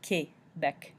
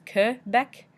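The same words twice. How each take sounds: First: Quebec as kay-BEK, French style; French pronunciation. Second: Quebec as kuh-BEK, English style; anglicized Quebec, kuh-bek; English pronunciation. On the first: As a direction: say Quebec with a clear AY in the first syllable. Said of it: "in French, it's properly pronounced". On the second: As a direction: say Quebec with a loose uh in the first syllable. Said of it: "In English, we often pronounce it as". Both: Shown as a demonstration.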